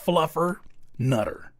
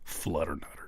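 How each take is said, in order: First: The first part is said as 'fluffer'. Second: The first part is said as 'flutter'. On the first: The speaker calls it right. "It's Fluffer Nutter. Because that sounds ten times better" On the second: The speaker calls it wrong. "I mispronounced it"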